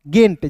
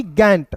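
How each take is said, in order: First: गेंट with a long "ay" vowel; correct गेंट. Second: गैंट with an open "ae" vowel; mispronounced गैंट. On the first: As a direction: say गेंट with ए, not ऐ. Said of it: "उच्चारण ए के रूप में करेंगे". (गेंट में ए की आवाज़) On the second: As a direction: say गैंट with ऐ, as misread. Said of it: "ना कि गैंट". (गैंट में ऐ की गलत आवाज़) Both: Shown as a demonstration.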